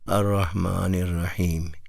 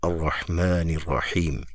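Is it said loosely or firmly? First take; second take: loosely; firmly. First: It is said loosely and weakly. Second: It is said firmly and strongly.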